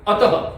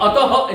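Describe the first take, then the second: First: अतः with a short breathed echo, "ataha"; correct visarga. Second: अतः with too heavy a final "ha"; overdone visarga. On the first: Teacher models correctly for students, अतः as brief "ataha". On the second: Teacher shows another error, अतः with overweighted "ha". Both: Shown as a demonstration. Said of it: "ऐसे भी नहीं बोलना".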